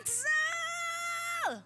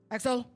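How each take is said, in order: First: It is said in her normal voice. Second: It is said in a deeper, heavier voice.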